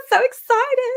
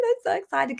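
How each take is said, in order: First: Much higher, louder I'm so excited; excited squeal. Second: Said in the usual way. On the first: Real, not acted. Host thrilled at a viewer's job offer, squealing. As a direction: squeal "so" with joy.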